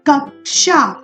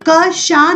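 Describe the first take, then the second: First: A light k sound comes before sh. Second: The middle cluster is a plain sh sound. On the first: The speaker calls it right. "बहुत carefully आपको इसकी ध्वनि निकालनी है" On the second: The speaker calls it wrong. "क शा नहीं पढ़ना इसको"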